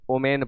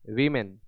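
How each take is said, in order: First: The word begins with an 'o' sound. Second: The word begins with a 'w' sound. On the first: The speaker calls it wrong. "इसको ओमेन पढ़ते हैं। दोनों गलत है।" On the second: The speaker calls it right. "Plural में पढ़ें वीमेन"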